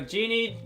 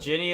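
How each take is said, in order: First: It sounds like 'genie', with a long vowel. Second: It sounds like 'Ginny', with a short vowel. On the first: The speaker calls it right. "it's, uh, Genie" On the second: The speaker calls it wrong. "not Ginny, as a lot of people in the West seem to be keen on pronouncing it"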